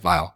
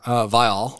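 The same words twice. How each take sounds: First: The name is said loosely in a casual Midwestern way. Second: The name is said carefully and clearly enunciated. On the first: The speaker calls it wrong. "if I'm not like trying to enunciate, ... it just often comes out as like Viall" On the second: The speaker calls it right. "How to pronounce Nick Viall"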